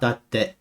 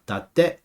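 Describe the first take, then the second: First: The pitch stays flat at the end. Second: The pitch rises at the end. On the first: The speaker calls it wrong. "It's not datte" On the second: The speaker calls it right. "it goes up"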